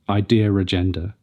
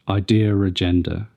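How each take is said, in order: First: An r sound links the two words. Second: The same.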